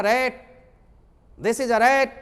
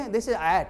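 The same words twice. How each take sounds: First: रैट and rat with a hard, louder r; strong r. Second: At said with the r swallowed, no r; r dropped. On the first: Teacher demonstrating the right way with a strong r. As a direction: punch the r of rat. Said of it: "जोर से बोलना है". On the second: Teacher showing the wrong way, r dropped. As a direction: say at instead of rat. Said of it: "ये नहीं". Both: Shown as a demonstration.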